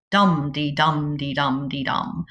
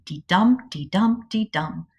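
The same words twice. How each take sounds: First: Heavy then light, stress on each first "dum"; trochaic rhythm. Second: Light then heavy, stress on each "dum"; iambic rhythm. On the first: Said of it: "a heavy beat and then a light one". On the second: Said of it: "goes light, heavy, light, heavy". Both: Shown as a demonstration.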